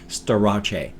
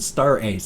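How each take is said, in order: First: The name ends with an 'ache' sound. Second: The name ends with an 'ace' sound. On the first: "I'd probably pronounce it like Starache" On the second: "If I didn't pronounce it Star Ace"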